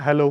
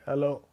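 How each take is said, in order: First: It is said in a normal, clear voice. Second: It is said in a disturbing, blurry echo voice.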